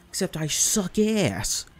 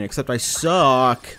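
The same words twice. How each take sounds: First: Unvoiced self-mocking whisper; whispered aside. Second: Slow self-deprecating. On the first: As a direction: mutter it under your breath, unvoiced. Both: Real, not acted.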